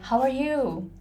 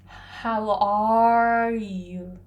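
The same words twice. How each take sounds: First: The final word 'you' is drawn out long. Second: The final word 'you' is kept short. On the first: The speaker calls it right. "Usually people say" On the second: The speaker calls it wrong.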